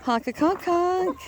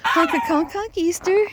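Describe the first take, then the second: First: Slow, stretched honk with weight on conk; slow drawn-out goose call. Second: Higher mock honk, rising at the end; high sing-song goose call. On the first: Pretend. Man repeats goose greeting, slow drawn-out honk. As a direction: draw out the conk like a lazy honk. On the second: Man greets his goose friend, high rising mock honk.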